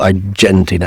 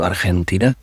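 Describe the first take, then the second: First: The word is pronounced the English way. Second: The word is pronounced the Spanish way. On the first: "that's the English pronunciation" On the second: "as opposed to"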